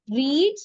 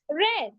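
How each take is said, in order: First: The vowel is long, sounding like 'reed'. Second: The vowel is short, sounding like 'red'. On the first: It is the present or base form. "base form and simple past" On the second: It is the simple past form. "Like how we pronounce the color red"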